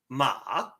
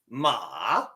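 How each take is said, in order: First: The pitch starts low and rises. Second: The pitch drops and then rises again. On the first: It means hemp. "your second tone sounds like ma, ma. It starts down here and raises up" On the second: It means horse. "It starts high, drops, and goes back up"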